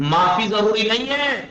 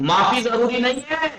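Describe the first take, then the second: Both takes have the same delivery.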